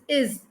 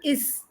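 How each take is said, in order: First: The word ends with a buzzing z sound. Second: The word ends with a hissing s sound. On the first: The speaker calls it right. "So the ending z sound" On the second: The speaker calls it wrong. "it is not is"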